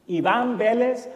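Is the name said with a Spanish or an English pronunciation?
Spanish. The name is said with Spanish pronunciation. This is the name as originally said.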